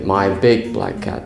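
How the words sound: The word big carries the stress. "if you want emphasis on the word big"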